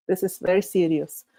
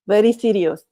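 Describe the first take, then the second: First: Said in the usual way. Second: Put-on louder, playful Russian accent on very serious; short, firm, joking Russian accent; mock Russian accent. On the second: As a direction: ham up a Russian accent for the joke. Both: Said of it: "Sometimes I like to use a Russian accent".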